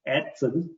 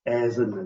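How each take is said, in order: First: The name is said with a German pronunciation. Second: The name is said with an English pronunciation. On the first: "the German pronunciation for the word is" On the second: "in English we call it"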